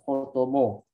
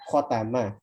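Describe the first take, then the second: First: The vowels drift toward an o sound. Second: The vowels are said as a clear a. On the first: The speaker calls it wrong. "kalau kita nggak itmam, nggak sempurna" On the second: The speaker calls it right. "Kalau fathah khotama"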